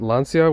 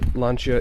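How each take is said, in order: First: The name is said with an American pronunciation. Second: The name is said without an American pronunciation. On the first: The speaker calls it wrong. "still works better with my American pronunciation" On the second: The speaker calls it right. "I'm going to try to be good about saying it correctly"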